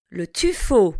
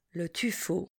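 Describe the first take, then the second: First: Tuffeau said clearly with the O sound; teacher models the O sound in tuffeau; model word. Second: Tuffeau repeated very softly. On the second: Teacher echoes tuffeau very quietly for the class. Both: Shown as a demonstration. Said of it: "passons au son O".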